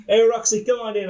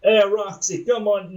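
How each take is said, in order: First: Loud, higher sleazy greeting; sleazy boss. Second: Loud, higher attempt at a southern accent. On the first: Acted. Big Daddy calls Roxy into his office, sleazy. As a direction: play it sleazy, over-friendly. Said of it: "just gonna play this sleazy". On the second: Boss greets employee in an attempted southern accent. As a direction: have a go at a wobbly southern accent. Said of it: "try to put on a southern accent".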